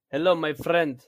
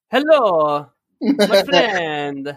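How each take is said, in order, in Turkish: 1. Rus aksanıyla konuşuluyor. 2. İtalyan aksanıyla konuşuluyor. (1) "Bir de bunun Rus versiyonu yap" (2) "Bu da mesela İtalyanların konuşma tarzı"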